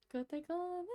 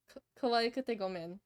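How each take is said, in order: First: High-pitched try. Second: Said in the usual way. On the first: Shown as a demonstration. Streamer tries the song title in its high voice, soft and lifted. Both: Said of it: "My voice isn't high enough for this".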